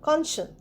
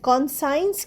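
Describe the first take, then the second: First: The middle sounds like see followed by en. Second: The middle sounds like the word sign. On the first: The speaker calls it right. "কনসিয়েন্স অর্থাৎ বিবেক" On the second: The speaker calls it wrong. "কনসাইন্স কিন্তু বলছি না"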